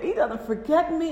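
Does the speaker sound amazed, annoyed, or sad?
amazed. It is said in an amazed, grateful tone. Being remembered is a wonderful gift. "It's amazing"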